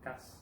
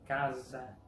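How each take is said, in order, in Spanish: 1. La consonante del medio es un sonido de s silbante. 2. La consonante del medio es un sonido de z sonora. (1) "en vez de" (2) "entre vocales tiene sonido de Z"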